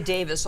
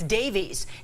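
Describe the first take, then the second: First: The name ends in a short 'is' sound. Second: The name ends in a long 'eez' sound. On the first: The speaker calls it right. "Whenever we say Davis on the air" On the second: The speaker calls it wrong. "people say it's Davies. It's not Davies"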